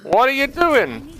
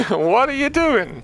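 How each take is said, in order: First: High, slow disbelieving wail; exasperated. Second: High, slow laughing disbelief. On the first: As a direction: stretch it out in disbelief. Coach repeats reaction. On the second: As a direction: laugh through the question. Repeat with laugh. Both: Real, not acted.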